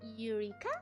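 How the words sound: The word is pronounced with English sounds. "English is Eureka?"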